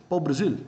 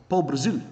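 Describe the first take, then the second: Both takes have the same delivery.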